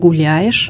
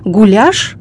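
First: Every sound of the word is pronounced. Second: The middle vowel sound is swallowed. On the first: This is the standard form. "вместо" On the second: This is how Urals speakers say it. "уральцы глотают звуки"

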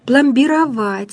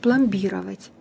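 First: The stress falls on the final syllable. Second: The stress falls on a middle syllable. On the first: The speaker calls it right. "где ударение будет совсем другое" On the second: The speaker calls it wrong. "а не пломбировать"

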